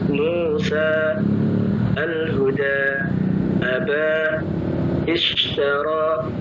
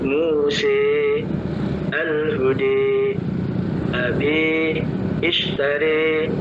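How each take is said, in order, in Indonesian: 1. Vokal akhirnya terbuka, bunyi a yang biasa saja. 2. Vokal akhirnya condong ke bunyi e.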